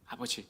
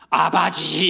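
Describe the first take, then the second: First: The word is said in a plain, normal way. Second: The word is said very forcefully and strongly. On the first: It is a habitual everyday cry. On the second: The situation is serious and urgent.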